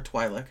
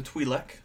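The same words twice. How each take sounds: First: Twi'lek said "TWY-lek"; Twi'lek rhyming its first syllable with "eye"; alternative pronunciation. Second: Twi'lek said "TWEE-lek"; long ee in the first syllable of Twi'lek; first pronunciation. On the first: Co-host offering the other way to say it, TWY-lek. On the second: Co-host offering one of two ways to say it, TWEE-lek. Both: Shown as a demonstration. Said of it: "however you wanna say it".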